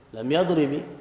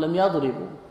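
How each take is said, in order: First: The verb ends with an i vowel. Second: The verb ends with a u vowel. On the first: "ووجد الخفض مع لم" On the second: "وجد الرافع مع لم"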